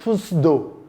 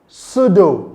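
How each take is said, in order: First: The word starts with a clear p sound. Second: The word starts with no p sound. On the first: The speaker calls it wrong. "not pseudo. Don't make that error" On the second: The speaker calls it right. "It is pronounced pseudo"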